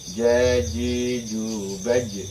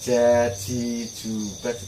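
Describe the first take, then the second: First: The j is said with no escaping air. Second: The j is said with air escaping. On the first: The speaker calls it right. "tidak boleh keluar anginnya" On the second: The speaker calls it wrong. "Kalau ja itu keluar anginnya pasti salah"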